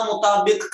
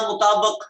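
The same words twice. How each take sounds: First: مطابق with short i, "mutaabiq"; zer reading. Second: مطابق with short a, "mutaabaq"; zabar reading. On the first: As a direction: end مطابق on -biq. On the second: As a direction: end مطابق on -baq. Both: Shown as a demonstration. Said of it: "آپ کا زبر automatically لگنا چاہیے".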